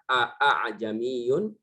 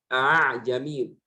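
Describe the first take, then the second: First: Both glottal stops are pronounced fully and clearly. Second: The second glottal stop is softened toward a vowel. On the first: The speaker calls it wrong. "diucapkan dengan dua hamzah" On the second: The speaker calls it right. "A'jamiyun dibaca dengan a'jamiyun"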